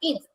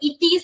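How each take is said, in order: First: The word is said as one syllable. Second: An extra vowel splits the word into two syllables. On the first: The speaker calls it right. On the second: The speaker calls it wrong.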